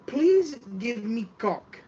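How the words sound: It is said in a mock Asian accent.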